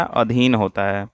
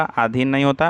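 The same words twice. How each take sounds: First: अधीन said with a short first अ, slowly and falling; teacher gives the right अधीन, short अ, slow and settled; correct form. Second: आधीन said with a long first आ, as the wrong form; teacher voices the wrong आधीन with a long आ and a rising end; wrong spelling said. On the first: Teacher correcting students, अधीन said slowly with a short अ. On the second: Teacher showing students the wrong form, आधीन said with a long आ, rising. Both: Shown as a demonstration.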